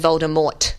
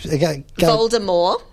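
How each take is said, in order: First: The final T sound is clearly pronounced. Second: The final T sound is left silent. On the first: The speaker calls it wrong. "which is how they say it in the movies" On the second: The speaker calls it right. "with no T"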